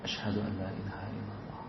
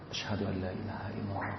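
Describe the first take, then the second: Both takes have the same delivery.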